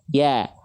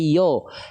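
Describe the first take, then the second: First: The vowel is light and sounds like a. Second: The vowel is heavy and sounds like o. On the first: The speaker calls it right. "tapi dia dibaca ya" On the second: The speaker calls it wrong. "Dia nggak dibaca yo"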